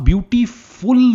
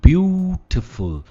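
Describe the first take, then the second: First: The final syllable is a full 'ful' sound. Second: The final syllable is reduced to a short 'fl'. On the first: The speaker calls it wrong. "हम ब्यूटीफुल नहीं कहते" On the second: The speaker calls it right. "इसमें फुल नहीं है, फल है"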